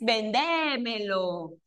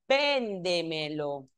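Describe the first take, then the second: First: The stress falls on a later syllable. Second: The stress falls on the first syllable. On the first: The speaker calls it wrong. "No es vendémelo" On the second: The speaker calls it right. "es véndemelo"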